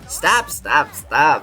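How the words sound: It is said in a tearful, crying voice.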